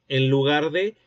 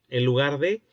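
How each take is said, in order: The two takes are said the same way.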